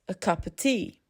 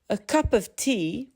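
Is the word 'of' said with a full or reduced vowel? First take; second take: reduced; full. First: The small words shrink to schwa. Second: The small words keep their full vowels.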